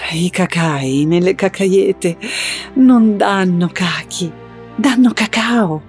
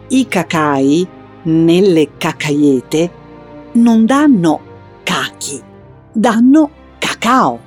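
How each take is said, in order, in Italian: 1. Si dice con un tono tenero, romantico. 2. Si dice con un tono chiaro, esplicativo.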